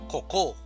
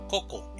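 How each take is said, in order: First: The stress is on the second syllable. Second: The stress is on the first syllable. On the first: The speaker calls it wrong. "No decimos coco" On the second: The speaker calls it right. "sino coco en la primera sílaba"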